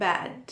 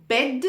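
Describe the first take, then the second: First: "bad" with an open a. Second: "Bed" with a short e vowel; crisp e in "Bed". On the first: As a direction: widen the vowel in "bad". ("bad" में खुला ऐ बोलें) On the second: ("Bed" में छोटा ए बोलें) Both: Shown as a demonstration. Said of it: "the correct pronunciation would be".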